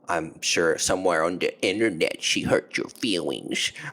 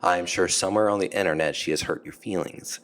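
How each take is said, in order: First: It is said in a mocking tone. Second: It is said in a sincere tone. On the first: The claim is not meant seriously. The speaker calls it wrong. "the mocking tone" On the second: The claim is meant seriously. The speaker calls it right. "I'll say it without the mocking tone"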